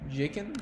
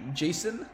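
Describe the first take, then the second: First: The middle consonant is a hard K sound. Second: The middle consonant is a soft S sound. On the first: "or a K, like a, a hard hard sound" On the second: "C pronounced as an S"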